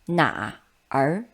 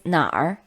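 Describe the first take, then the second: First: It is two separate syllables, na and er. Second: It is one syllable with a curled-tongue ending. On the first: The speaker calls it wrong. "instead of reading it separately as in written" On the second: The speaker calls it right. "it's 哪儿"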